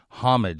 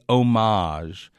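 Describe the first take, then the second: First: The word is said the anglicized English way. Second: The word is said the French-style way. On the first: The word has long been part of English. The speaker calls it right. "words that we borrow from French that have long since been anglicized. Homage is a good example" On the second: This sounds pretentious. The speaker calls it wrong. "to say homage is hopelessly pretentious"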